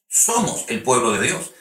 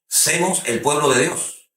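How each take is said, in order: First: The first word is said with an o vowel. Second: The first word is said with an e vowel. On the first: The speaker calls it right. "no semos, es somos" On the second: The speaker calls it wrong. "personas que dicen que eh, semos"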